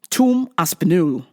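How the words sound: It is said in an English accent.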